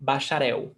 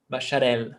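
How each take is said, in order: First: "bacharel" ending in a w-like glide; corrected Brazilian "bacharel", no tongue contact for the L; final L as U. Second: "bacharel" with a fully sounded final L; wrong hard L. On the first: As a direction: say "bacharel" as "ba-sha-REH-oo". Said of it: "has the pronunciation of U". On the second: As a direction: say "bacharel" as "ba-sha-RELL". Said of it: "It's not bacharel". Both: Shown as a demonstration.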